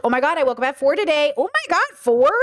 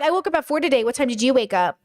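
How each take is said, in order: First: Openly venting about waking at four, voice leaping up on four; sharing. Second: A touch of smug one-upping, matter-of-fact; lightly brag, then turn it on them; bragging. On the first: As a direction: share it like a complaint you want sympathy for. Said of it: "Sharing versus bragging". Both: Shown as a demonstration.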